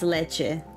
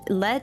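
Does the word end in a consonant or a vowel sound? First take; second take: vowel; consonant. First: The word ends with a full final vowel sound. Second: The word ends on a consonant, final vowel dropped. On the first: It is the normal way to say milk. "but it's leche" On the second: It is said as a joke. "I just say lech, lech because it's funny"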